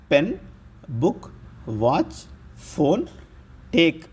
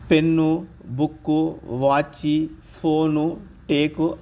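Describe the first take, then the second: First: పెన్, బుక్, వాచ్ ending on the bare consonant, no vowel after; clipped final consonants. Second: పెన్ను, బుక్కు, ఫోను, టేకు with an extra "u" on the end; added final vowel. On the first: Teacher showing learners English word endings, పెన్ and టేక్ with bare final consonants. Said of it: "చివరి పొల్లులను పొల్లుగా పలికితే బాగుంటుంది". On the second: Teacher showing what not to say, vowel-ended పెన్ను, బుక్కు, వాచి. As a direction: stretch out వాచి and పెన్ను with a Telugu vowel after the last consonant. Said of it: "అనం కదా". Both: Shown as a demonstration.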